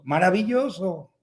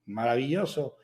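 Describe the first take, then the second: First: Mock child's call. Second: Lower, softer answering repeat; imitated echo. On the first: (llamada fingida de niño, alargada) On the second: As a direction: give the word back like a cave. (eco imitado, más grave y flojo) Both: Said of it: "grita algo".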